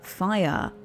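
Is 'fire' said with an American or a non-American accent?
non-American. Fire is said in a non-American accent. "the way I would say it"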